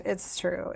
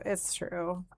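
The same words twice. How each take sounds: First: "true" gets the weight: It's TRUE; stress on true. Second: "It's" gets the weight, softer overall: IT'S true; stress on its. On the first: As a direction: lean on the word "true". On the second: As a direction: lean on "It's", let "true" drop. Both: Shown as a demonstration.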